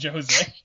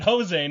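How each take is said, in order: First: The name is said the game's way. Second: The name is said the American way. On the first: "not Jose" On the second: "I am a I don't know stupid American... I pronounce it Jose"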